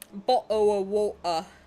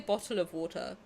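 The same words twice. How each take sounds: First: The t sounds are dropped. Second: The t sounds are clearly pronounced. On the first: The stereotyped way English people are thought to talk. "That's harder to do. Like the dropping of" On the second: The speaker's own posh southern way of talking. "I say bottle of water because I'm from the south. I'm a posh twat"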